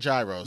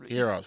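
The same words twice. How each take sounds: First: The word is said with an anglicized pronunciation. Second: The word is said with the Greek pronunciation. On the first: The speaker calls it wrong. "Not gyros" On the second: The speaker calls it right. "I like that you say it right"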